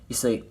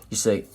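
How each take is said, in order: No difference in how they are said.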